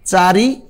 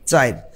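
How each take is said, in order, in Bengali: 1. 'i' ধ্বনিটি শব্দের শেষে আসে। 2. 'i' ধ্বনিটি শেষের 'r'-এর আগে আসে। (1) "এই রস্যইকার এই ধ্বনিটা কিন্তু শেষে উচ্চারণ হলো" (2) "এই ধ্বনিটা টুস করে ঢুকে পড়বে মাঝখানে"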